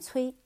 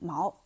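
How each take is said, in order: First: The syllable is read as cui. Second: The syllable is read as mao. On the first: The speaker calls it right. "把它更正过来，念崔" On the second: The speaker calls it wrong. "那个字儿啊不念毛啊，念错了"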